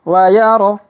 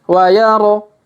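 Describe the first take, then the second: The two takes are said the same way.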